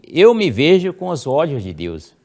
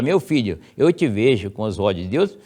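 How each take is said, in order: First: Raised, louder affirmation; first-person affirmation. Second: Said in the usual way. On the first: Shown as a demonstration. Teacher giving the new first-person wording, raised. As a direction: Eu me vejo said high and strong. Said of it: "você diga". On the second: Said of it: "em vez de falar".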